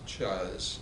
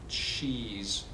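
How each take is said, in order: First: The vowel is an 'uh' sound. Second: The vowel is an 'ee' sound. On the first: The speaker calls it wrong. "not the uh" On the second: The speaker calls it right. "so E"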